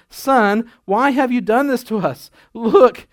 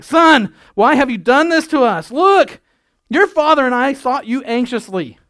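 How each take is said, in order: First: Mild formal scolding mother; reading the mother's words a bit stiffly. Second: High, loud frantic mother; frantic scolding mother. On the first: Pastor reads Mary's line to her son, mildly formal. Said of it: "I don't think it actually sounded like that". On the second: Pastor shows how Mary really scolded her lost son, frantic and loud. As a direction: shriek it like a parent who lost her kid. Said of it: "because I remember losing my kids". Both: Shown as a demonstration.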